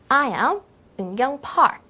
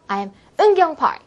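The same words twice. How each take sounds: First: The stress falls on the surname. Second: The stress falls on the first name. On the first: The speaker calls it right. "강세가 본인의 이름보다는 성 부분에 좀 들어갈 수 있도록" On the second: The speaker calls it wrong. "이게 아니라"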